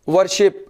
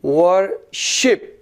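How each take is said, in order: First: Said in the usual way. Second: "worship" very slowly as वर, pause, शिप; syllable by syllable. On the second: Shown as a demonstration. Teacher showing where stress falls, "worship" split as वर - शिप. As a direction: break "worship" in two, leaning on शिप. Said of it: "रुक रुक के पढ़ते हैं".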